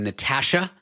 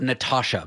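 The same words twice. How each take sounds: First: Natasha said the Canadian way; Canadian pronunciation. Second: Natasha said the US way; American pronunciation. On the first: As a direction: say Natasha as Canadians do, flat "a" as in "cat". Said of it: "I grew up pronouncing the name". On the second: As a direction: say Natasha as in the US, open "ah" in the middle. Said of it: "not Natasha". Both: Shown as a demonstration.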